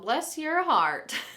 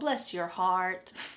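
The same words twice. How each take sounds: First: It is said in a sharp, cutting tone. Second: It is said in a soft, pitying tone. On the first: The speaker thinks the person is stupid. "a little sharper or cutting a little bit more" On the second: The speaker feels sorry for the person. "One might be pity"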